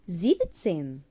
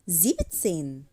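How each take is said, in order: The two takes are said the same way.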